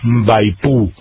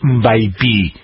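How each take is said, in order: First: The final vowel is a clear u sound. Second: The final vowel is a clear i sound. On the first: "tampoco es una U decidida" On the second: "esa Y no es mbaipi"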